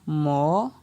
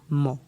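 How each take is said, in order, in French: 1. Il est prononcé sur un ton montant. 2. Il est prononcé sur un ton bas. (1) "Ton montant" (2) "on aura donc ton bas"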